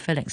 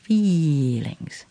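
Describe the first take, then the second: First: The first vowel is short, like fillings. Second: The first vowel is long and drawn out. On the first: The speaker calls it wrong. "乜嘢係feelings 啊？" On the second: The speaker calls it right. "一個係長嘅E 音，係feelings。"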